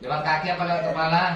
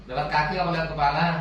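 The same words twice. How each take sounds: The two takes are said the same way.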